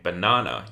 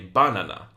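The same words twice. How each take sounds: First: The stress falls on the expected syllable. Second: The stress falls on an unexpected syllable. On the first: The speaker calls it right. "instead of saying banana" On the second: The speaker calls it wrong. "you might say banana"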